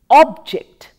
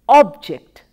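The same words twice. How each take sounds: First: The stress is on the first syllable. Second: The same.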